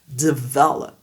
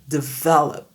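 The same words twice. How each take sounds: Both takes have the same delivery.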